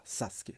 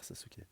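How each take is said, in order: First: Sasuke said softly as two syllables, the middle vowel dropped, like saskeh; Japanese-style name. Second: Said in the usual way. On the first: Shown as a demonstration. Reader shows how Sasuke should be said in Japanese, soft and clipped. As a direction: whisper Sasuke the Japanese way: sas-keh, no middle e. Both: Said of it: "normalement, faut prononcer comme ça".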